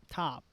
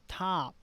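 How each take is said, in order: The two takes are said the same way.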